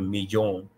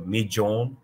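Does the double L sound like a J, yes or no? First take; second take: no; yes. First: The double L does not sound like a J. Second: The double L sounds like a J. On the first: This is how it is said outside Argentina. "as opposed to" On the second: This is how it is said in Argentina. "the double L is going to sound more like a J sound"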